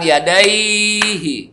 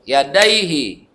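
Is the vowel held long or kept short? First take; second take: long; short. First: The vowel is drawn out long. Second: The vowel is kept short, one beat. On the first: The speaker calls it wrong. "Bukan yadaihi, salah. Kalau sampai dipanjangkan dainya maka salah" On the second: The speaker calls it right. "Pendek bacanya, yadaihi, satu ketuk"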